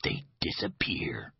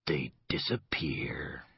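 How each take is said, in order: First: Slow, softer menacing whisper. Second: Very slow, much softer frightened whisper. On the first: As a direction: breathe the threat like a secret. He snapped his fingers. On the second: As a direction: barely voice it, scared of the words. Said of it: "what he saw frightened him". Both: Acted.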